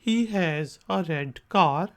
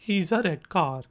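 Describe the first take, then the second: First: It is said at a normal, unhurried speed. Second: It is said quickly, with words run together.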